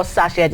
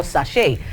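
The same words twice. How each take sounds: First: "sachet" said SASH-et; listeners' pronunciation. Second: "sachet" said sa-SHAY; local pronunciation. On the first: Presenter quoting listeners' version, "sachet" pronounced SASH-et. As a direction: end "sachet" on a short -et, SASH-et. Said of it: "that you call sachet". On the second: Presenter giving the local version, "sachet" pronounced sa-SHAY. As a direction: end "sachet" on an open -ay, no t sound. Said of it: "is what we call sachet". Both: Shown as a demonstration.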